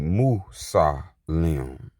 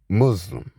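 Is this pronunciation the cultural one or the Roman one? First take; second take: cultural; Roman. First: It uses the speaker's own cultural pronunciation. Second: It uses the common Roman-style pronunciation. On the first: The speaker calls it right. "we say Musalim" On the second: The speaker calls it wrong.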